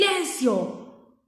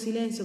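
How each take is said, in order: First: It is said loudly and angrily. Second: It is said calmly and softly. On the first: The speaker is annoyed and wants it to stop now. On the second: A gentle request for quiet.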